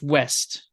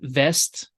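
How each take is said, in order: First: The word begins with a W sound. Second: The word begins with a V sound. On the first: This is the English way. "In English" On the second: This is the German way. "In German, we have something similar. We'll say West, V"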